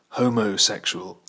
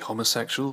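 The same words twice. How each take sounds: First: Both O vowels in 'homo' are long. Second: Both O vowels in 'homo' are short. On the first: The speaker calls it wrong. "so the second O is as long as the first" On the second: The speaker calls it right. "Some people use Greek pronunciation"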